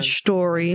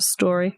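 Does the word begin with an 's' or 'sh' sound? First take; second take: sh; s. First: The word begins with a 'sh' sound. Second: The word begins with a plain 's' sound. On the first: "S H T O R Y. She said" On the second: "instead of"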